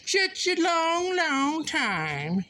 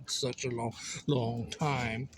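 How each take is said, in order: First: High, drawn-out croon on "long, long time"; playful singsong. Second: Said in the usual way. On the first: Pretend. Missing a busy friend, playful high singsong. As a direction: stretch it slowly, well above your usual pitch.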